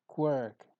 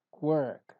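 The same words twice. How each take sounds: The two takes are said the same way.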